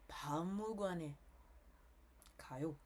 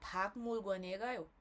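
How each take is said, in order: First: It is spoken with a nasal voice quality. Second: It is spoken without a nasal voice quality. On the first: "Eu com nasalado" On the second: "Eu sem, sem ah, o tom nasalado"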